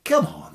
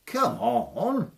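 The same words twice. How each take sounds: First: Loud goading challenge; taunting. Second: High, rising goading call; sing-song dare at the giant; taunting. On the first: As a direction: dare the giant to get up. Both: Acted. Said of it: "says Tom".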